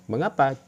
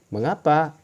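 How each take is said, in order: Both takes have the same delivery.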